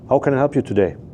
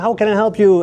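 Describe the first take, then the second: First: It is said slowly and calmly. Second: It is said fast with high energy.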